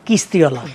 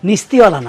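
First: The word begins with a k sound. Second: The word begins with an n sound. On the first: The speaker calls it right. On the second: The speaker calls it wrong. "নিস্তিওয়ালা না"

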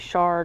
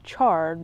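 First: The word begins with an 'sh' sound. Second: The word begins with a 'ch' sound. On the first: The speaker calls it wrong. "I always say shard" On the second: The speaker calls it right. "It's not with an SH, it's a CH, so it should be charred"

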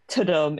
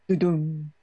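First: It begins with a clear T sound. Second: It begins without a clear T sound. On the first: The speaker calls it wrong. "is not ta-dum" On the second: The speaker calls it right. "It's not a T sound"

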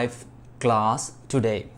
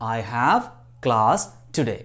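First: 'I have' is shortened to one syllable. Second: 'I have' is said as two full words.

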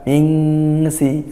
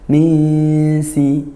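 First: The nasal before s sounds like ng. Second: The nasal before s is a light n. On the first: The speaker calls it wrong. "bukan mingsi, nah itu kurang pas" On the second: The speaker calls it right. "Misi, nah bukan mingsi"

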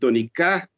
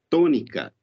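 First: The stress is on the third syllable. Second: The stress is on the first syllable. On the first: "então você teria que rimar com sabiá" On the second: "nós sabemos que a primeira sílaba já é a tônica dessa palavra"

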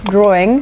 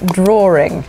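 First: There is no R sound in the middle of the word. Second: There is an R sound in the middle of the word. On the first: "Sometimes instead of saying words like drawing" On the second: "we say drawing, because it just feels natural"

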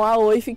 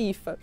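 First: The name is read letter by letter, as spelled. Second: The name sounds like ee-fa. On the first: The speaker calls it wrong. "Muito conhecido esse nome pelos brasileiros como Aoif" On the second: The speaker calls it right. "mas fala Ifa"

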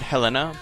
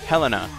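First: The stress is on the second syllable. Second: The stress is on the first syllable. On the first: The speaker calls it wrong. "I always pronounce it Helena" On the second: The speaker calls it right. "accent over the first E"

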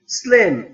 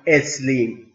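First: The word starts directly with the s sound. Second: An extra vowel is added before the s. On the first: The speaker calls it right. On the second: The speaker calls it wrong.

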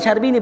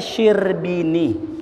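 First: The first syllable has the vowel 'a'. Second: The first syllable has the vowel 'i'. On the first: The speaker calls it wrong. "bukan syarbini" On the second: The speaker calls it right. "bacanya syirbini"

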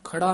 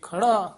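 First: The word is said with light weight. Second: The word is said with heavy weight. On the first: The speaker calls it wrong. "ਖੜਾ ਨਹੀਂ ਕਹਿਣਾ ਹੈ" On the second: The speaker calls it right. "ਭਾਰਾ ਪਦ ਉਚਾਰਨ ਕਰਨਾ ਹੈ"

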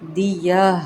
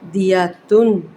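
First: The word ends without the tan syllable. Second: The word ends with a tan syllable. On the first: The reader stops on this word. "وقفی صورت میں دیا" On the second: The reading continues without stopping. "تنوین پیش"

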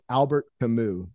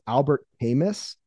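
First: The final S of Camus is not sounded. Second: The final S of Camus is sounded. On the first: The speaker calls it right. "The S is silent" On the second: The speaker calls it wrong. "I believe I mispronounced this gentleman's name"

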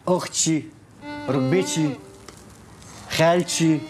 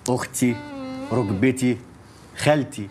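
First: The words end with an added sh sound. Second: The words end without an added sh sound. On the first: The speaker calls it wrong. "ما تقوليش" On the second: The speaker calls it right. "تقولي"

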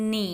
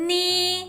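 First: The pitch dips low, then rises. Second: The pitch stays high and level. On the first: "หนีคือเสียงวรรณยุกต์ที่3" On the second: "ไล่เสียงได้นะคะ"

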